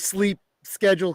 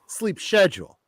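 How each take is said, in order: First: Schedule is said the American way. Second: Schedule is said the British way. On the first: The speaker calls it wrong. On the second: The speaker calls it right.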